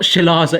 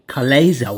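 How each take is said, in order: First: The word begins with a 'sh' sound. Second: The word begins with a 'k' sound. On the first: The speaker calls it wrong. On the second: The speaker calls it right.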